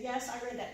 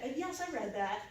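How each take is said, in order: First: Said in the usual way. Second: The word I stressed in yes, I read that. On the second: Real, not acted. To the audience, confessing she read it: stress on I. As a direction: own admission, leaning on I.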